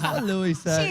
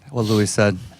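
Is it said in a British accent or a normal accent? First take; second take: British; normal. First: It is said in a put-on British accent. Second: It is said in the speaker's normal accent.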